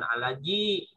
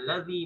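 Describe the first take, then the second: First: The middle consonant is a j sound. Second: The middle consonant is a soft th-like sound. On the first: The speaker calls it wrong. "bukan alaji gitu ya" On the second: The speaker calls it right. "Jadi jangan disamakan alladzi ya alladzi"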